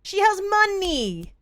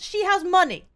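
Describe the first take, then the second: First: "She has money" drawn out slowly, "has" stressed; slow emphatic. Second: Indignant. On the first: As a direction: spell out "has" like it's obvious. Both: Acted. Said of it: "I'm furious".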